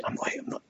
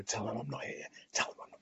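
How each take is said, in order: First: Unvoiced, breathy whisper; mouthing to your partner not to pass the phone; whispered mime. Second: Barely voiced, much softer aside; whispered aside so the caller can't hear; mimed whisper. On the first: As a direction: whisper it while waving a hand under the chin. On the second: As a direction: hush it as if miming to your partner. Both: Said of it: "that miming sort of".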